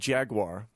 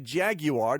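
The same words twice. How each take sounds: First: The word has a plain American pronunciation. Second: The word has a British pronunciation.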